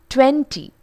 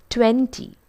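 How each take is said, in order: The two takes are said the same way.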